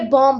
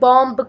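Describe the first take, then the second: First: The final b sound is silent. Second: A final b sound is heard. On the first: The speaker calls it right. "हम इसे बॉम्ब बोलते हैं" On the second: The speaker calls it wrong. "हम इसे बॉम्ब करके नहीं बोलते हैं"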